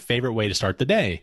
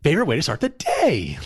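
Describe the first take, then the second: First: It is read in a plain, flat way. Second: It is said with lively, excited energy.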